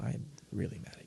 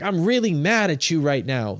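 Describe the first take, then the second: First: It is said in a calm, restrained voice. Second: It is said in an openly angry voice.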